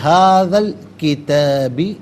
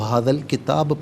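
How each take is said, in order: First: The phrase ends with a final -i vowel. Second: The phrase ends on a bare b sound. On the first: The reading continues past this point. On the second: The reader stops at this point.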